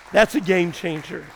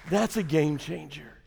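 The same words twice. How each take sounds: First: Said in the usual way. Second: Softer, lower repeat of game changer; quiet echo. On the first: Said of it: "repeated line, first take". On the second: Shown as a demonstration. Pastor echoing his point to the congregation, quietly. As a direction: let game changer fall away to a hush. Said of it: "repeated line, softer echo".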